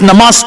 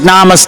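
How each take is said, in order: First: It is said with its original South Asian pronunciation. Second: It is said with an Anglicized, American-style pronunciation. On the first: The speaker calls it right. "It's not, it's namaste" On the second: The speaker calls it wrong. "pronounced like namaste"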